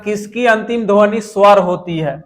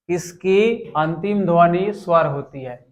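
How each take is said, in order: First: Said in the usual way. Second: Slower, measured re-reading of the question; slow repeat. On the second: Real, not acted. Teacher repeating an exam question for students, slowly. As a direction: read it out slowly, phrase by phrase.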